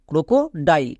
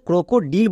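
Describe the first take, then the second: First: The last syllable has an 'eye' vowel. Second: The last syllable has an 'ee' vowel. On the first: The speaker calls it right. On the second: The speaker calls it wrong.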